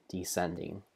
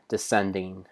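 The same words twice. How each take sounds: First: "descending" dropped much softer, ending on a lift; fading descending. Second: Said in the usual way. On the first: Shown as a demonstration. Narrating spiders dropping down, trailing off softly. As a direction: let "descending" sink away quietly, tipping up at the end.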